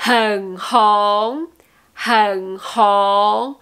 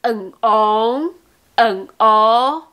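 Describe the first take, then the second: First: "Hen hong" with laughing-style breathed H on both syllables; sounded H. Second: "hen hong" said as "en ong", no breath at the onsets; wrong dropped H. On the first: Teacher repeating the correct form, audible H in "Hen hong". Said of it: "n'oubliez pas le H comme ha ha ha". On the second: Teacher contrasting the learners' error, dropped H in "hen hong". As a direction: open both syllables straight on the vowel. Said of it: "Ce n'est pas". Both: Shown as a demonstration.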